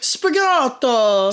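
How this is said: It is said in a put-on character voice.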